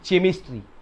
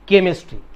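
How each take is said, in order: First: The word begins with a 'ch' sound. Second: The word begins with a 'k' sound. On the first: The speaker calls it wrong. "चे चे चेमिस्ट्री" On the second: The speaker calls it right. "It is केमिस्ट्री"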